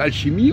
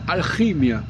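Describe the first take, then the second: First: The ch is a soft hushing sh sound. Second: The ch is a guttural sound from the throat. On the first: It ignores the spelling code for the original sound. The speaker calls it wrong. "si on dit alchimie, on ne respecte pas le code" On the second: It follows the spelling code for the original sound. The speaker calls it right. "le C H, ça veut dire qu'il doit prononcer alchimia"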